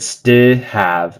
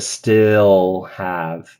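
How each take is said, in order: First: The L sound in 'still' is left out. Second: The L sound in 'still' is clearly heard. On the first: The speaker calls it wrong. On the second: The speaker calls it right.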